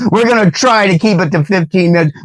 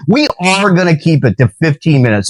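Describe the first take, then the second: First: High, quick delivery leaning on "try"; stress on TRY. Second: Higher pitch, firm weight on "We are"; stress on WE ARE. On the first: Preacher jokes to viewers about the time limit, stress on "try". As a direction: hit "try" as a laughing hedge. Corrects himself, hedged promise first. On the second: Preacher commits to fifteen minutes, firmly stressing "We are". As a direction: correct the hedge by leaning on "are". Firm correction of the hedged promise. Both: Real, not acted.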